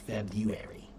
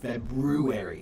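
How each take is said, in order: First: The first r after b is dropped. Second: The first r after b is clearly sounded. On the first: It is the newer, common pronunciation. "not February" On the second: It keeps the older pronunciation that follows the word's origin. "I still pronounce it as February"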